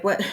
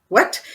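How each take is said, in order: First: Said in the usual way. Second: Higher, louder disbelieving what; the second what jumps up in shock; retold double take; stunned what. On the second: Astonished after waking from dream.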